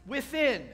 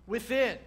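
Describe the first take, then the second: No difference in how they are said.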